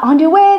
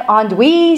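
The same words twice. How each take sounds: First: Andouille said as "on-doo-way"; three syllables in Andouille, ending in "way"; menu pronunciation of andouille. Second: Andouille said as "on-dwee"; two syllables in andouille, ending in "wee"; familiar sausage pronunciation. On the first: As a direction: sound out Andouille as "on-doo-WAY", questioning. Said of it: "something on the menu called". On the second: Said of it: "that kind of looks like". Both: Retold or imitated.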